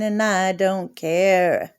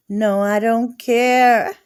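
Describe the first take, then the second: First: Said in the usual way. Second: Louder, drawn-out defiance; mock-defiant no I don't care. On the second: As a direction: insist you don't care, slowly. Repeated, louder defiant take.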